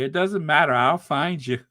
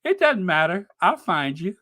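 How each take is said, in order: First: Lightly menacing debt collector; a hint of loan shark threat; smiling menacing loan shark. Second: Playful higher menacing repeat; smiling menacing loan shark. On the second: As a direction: tease the threat with a grin. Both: Shown as a demonstration. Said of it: "you sound like a loan shark".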